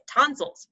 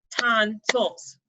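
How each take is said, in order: First: Said in the usual way. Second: "Tonsils" with a break, TON, SILS; broken into syllables. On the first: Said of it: "think about when you're saying tonsils". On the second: Shown as a demonstration. Teacher showing it's not one sound, "Tonsils" split in two. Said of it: "kinda have, break up that pattern".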